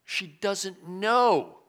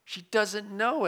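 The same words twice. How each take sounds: First: "She doesn't know" dragged out slowly, landing hard on "know"; slow stressed KNOW. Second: "She doesn't know" again, slow, with "know" pushed higher; repeated with emphasis. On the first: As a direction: stretch out "She doesn't know" and press the final "know". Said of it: "She doesn't know, it says". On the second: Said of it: "it says, what she's doing". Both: Shown as a demonstration.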